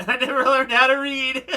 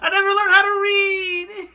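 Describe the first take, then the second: First: Laughing through the line; can't get the words out for giggling; real laughter breaking in. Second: High, loud, hammed-up sob voice; badly faked crying; mock crying. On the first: Real, not acted. Laughing while reading line. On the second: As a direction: wail it like a pretend crybaby. Mock crying replay of line.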